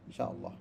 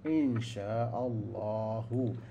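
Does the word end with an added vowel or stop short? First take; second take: stops short; added vowel. First: The word stops short without the final vowel. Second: The word ends with a final 'u' vowel. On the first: "kita matikan insya'allah" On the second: "Semua insya'allahu sebenarnya"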